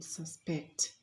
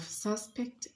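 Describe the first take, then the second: First: Sus-PECT, "suspect" stressed on the second syllable. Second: SUS-pect, "suspect" stressed on the first syllable. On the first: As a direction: say "suspect" as a verb, weight on the end. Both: Shown as a demonstration. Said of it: "with the correct stressed".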